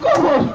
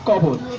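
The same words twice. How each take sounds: First: It is recited in a weeping, tearful way. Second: It is recited in a plain, simple way. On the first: "তিনি একটু বেশি কান্নাকাটি করেন" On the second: "সহজ সরল, অতি সাধারণ"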